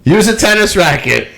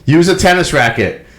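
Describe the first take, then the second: First: Mock taunt rising in pitch; heckling fan. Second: Mock heckle from the stands, starting mild; lightly imitating a fan's first taunt; heckling fan. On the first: The fan repeats his taunt to the player, pitched higher. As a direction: heckle pushed higher, pressing harder. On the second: A fan taunting the player from the stands, mild mock heckle. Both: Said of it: "what the fan was saying to him".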